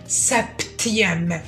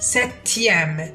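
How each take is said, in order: First: The p sound is pronounced. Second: The p sound is silent. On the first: The speaker calls it wrong. "ما قلتش سبتيام" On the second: The speaker calls it right. "هنا حرف البي هو الحرف الصامت"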